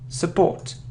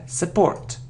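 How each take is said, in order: No difference in how they are said.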